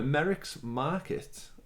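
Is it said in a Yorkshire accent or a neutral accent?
neutral. It is said in a neutral accent.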